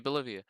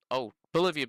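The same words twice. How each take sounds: First: Said in the usual way. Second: Loud, high burst of recognition; sudden realisation. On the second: Real, not acted. Player spotting the town on the map, excited realisation. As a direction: blurt it out as it clicks.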